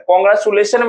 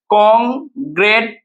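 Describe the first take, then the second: First: Said in the usual way. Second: कांग्रेचुलेशन slowly, with gaps between the parts; syllable by syllable. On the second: Shown as a demonstration. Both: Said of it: "हमने इस तरीके से लिखा".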